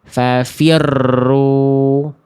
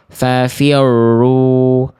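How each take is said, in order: First: The doubled r is trilled far too much. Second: The doubled r is faint, almost lost. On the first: "getaran rohnya terlalu berlebihan" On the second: "Eh apa hilang, samar"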